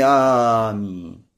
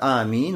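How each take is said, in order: First: The first vowel is drawn out very long. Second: The first vowel is held for two beats. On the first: The speaker calls it wrong. "Но никак не аминь" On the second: The speaker calls it right. "когда тянешь два харака, то есть обычный мат, аминь, вот так"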